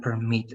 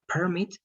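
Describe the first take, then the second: First: PerMIT, with the weight on MIT; stress on second syllable. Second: PERmit, higher on PER; stress on first syllable. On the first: Teacher quizzing student on two words, "permit" stressed on MIT. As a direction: verb "permit" stressed at the end. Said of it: "If it's in the second part". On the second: Teacher quizzing student on two words, "permit" stressed on PER. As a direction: noun "permit" stressed at the front. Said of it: "if it's in the first part". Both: Shown as a demonstration.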